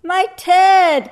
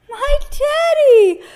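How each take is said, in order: First: High, loud storybook gasp of shock; acted startled exclamation, pitched up. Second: Very high, loud, drawn-out cry; high-pitched childlike call, stretched out. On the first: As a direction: gasp it out as the astonished bear. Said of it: "gasped the bear". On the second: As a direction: cry out slowly as little Eddie. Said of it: "cried Eddie". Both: A narrator's reading.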